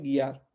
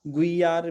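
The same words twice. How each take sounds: First: गियार with hard g and silent u; unglided गियार, no u; correct pronunciation. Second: गुइयार with the u sounded as a glide; audible u opening गुइयार; wrong pronunciation. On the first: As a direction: say गियार starting on a clean gi. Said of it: "ये क्या है? गियार।". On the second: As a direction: say गुइयार starting gu-i. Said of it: "गुइयार भी नहीं पढ़ सकते". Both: Shown as a demonstration.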